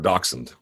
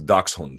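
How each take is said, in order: First: It is pronounced the anglicized American English way. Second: It is pronounced closer to the German way. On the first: "if you want to just say it in like super Anglo-sized American English" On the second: "My understanding of it is"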